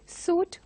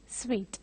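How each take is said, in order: First: The word sounds like 'suit'. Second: The word does not sound like 'suit'. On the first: The speaker calls it wrong. "pronounce it as suit or something like that" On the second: The speaker calls it right. "this has to be pronounced as suite"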